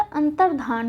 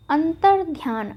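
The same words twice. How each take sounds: First: अंतर्धान with no y after dh; antar-dhaan, no glide, in अंतर्धान; correct form अंतर्धान. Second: अंतर्ध्यान with a y glide after dh; the mistaken antar-dhyaan in अंतर्ध्यान; wrong form अंतर्ध्यान. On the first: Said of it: "अंतर्धान होता है". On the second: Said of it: "अंतर्ध्यान नहीं होता". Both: Shown as a demonstration.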